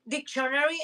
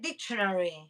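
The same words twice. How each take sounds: First: The stress falls on a later syllable. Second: The stress falls on the first syllable. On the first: The speaker calls it wrong. "always say first dictionary" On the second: The speaker calls it right. "I correct myself and I said dictionary"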